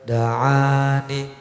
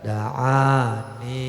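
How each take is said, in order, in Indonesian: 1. Vokal akhir pendek dan tidak dipanjangkan. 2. Vokal akhir dipanjangkan. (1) "Lebih bagus" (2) "Kok dipanjangin?"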